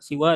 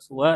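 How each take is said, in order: First: The first vowel is i. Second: The first vowel is u. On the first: "Ada yang menggunakan siwa" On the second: "ada yang menggunakan suwa"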